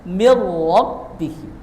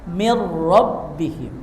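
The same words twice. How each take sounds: Both takes have the same delivery.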